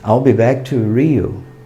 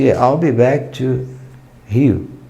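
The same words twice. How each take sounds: First: Rio is said with American English pronunciation. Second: Rio is said with Brazilian Portuguese pronunciation. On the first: Listeners understand which place is meant. The speaker calls it wrong. "Eu tive que dizer" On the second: Listeners do not understand which place is meant. The speaker calls it right. "Rio é a pronúncia correta"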